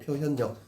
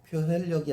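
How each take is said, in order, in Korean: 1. 마지막 음절은 ㄴ 소리로 시작합니다. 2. 마지막 음절은 ㄹ 소리로 시작합니다. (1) "리을의 비음" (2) "아니고"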